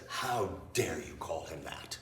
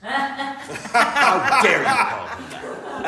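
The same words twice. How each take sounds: First: Low, slow, hushed mock outrage; soft, measured reproach, pitched well down; retold indignation. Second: High, loud, drawn-out indignation; hammed-up slow, high cry of outrage; mock outrage. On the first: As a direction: imitate an affronted man, quietly and deliberately. Retold outraged man confronting Rachel. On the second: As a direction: imitate an affronted man at full volume. Same outrage repeated, blown up.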